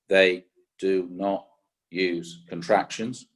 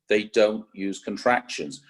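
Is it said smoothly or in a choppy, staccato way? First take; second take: staccato; smoothly. First: It is said choppily, each word separated. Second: It is said smoothly, words run together.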